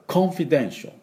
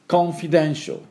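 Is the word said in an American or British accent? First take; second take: British; British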